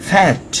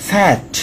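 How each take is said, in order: No difference in how they are said.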